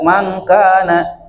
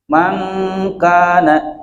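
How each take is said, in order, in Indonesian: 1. Bunyi sengau sebelum k dipotong pendek. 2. Bunyi sengau sebelum k ditahan panjang. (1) "jadi tidak" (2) "harus ditahan. Minimalnya dua harokat"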